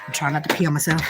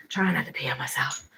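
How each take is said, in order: First: Said in the usual way. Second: Soft unvoiced whisper to herself. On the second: Real, not acted. Muttering to herself while desperate for the bathroom, whispered. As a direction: breathe it out under her breath. Repeats line, then whispers it.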